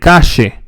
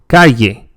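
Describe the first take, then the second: First: The double L sounds like sh. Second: The double L sounds like a y. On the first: The speaker is from Argentina. "in Argentina, they say shh" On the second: Most speakers say it this way. "pronounced like the English yeah"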